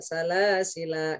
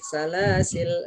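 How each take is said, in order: First: The word ends on a lengthened vowel. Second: The word ends on a bare consonant. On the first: "panjang satu alif" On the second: "Baca sukun"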